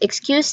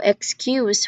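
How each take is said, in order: First: The stress is on the second syllable. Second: The stress is on the first syllable.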